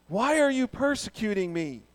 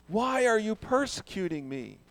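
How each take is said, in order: The two takes are said the same way.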